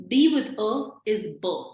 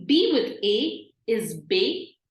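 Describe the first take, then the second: First: "b" with a neutral uh vowel, like "buh"; unaccented E sound. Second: "be" with an ay vowel, like "bay"; accented E sound. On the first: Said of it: "normally E is pronounced as a". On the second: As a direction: say "be" as "bay", not "buh". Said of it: "now it is an A sound". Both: Shown as a demonstration.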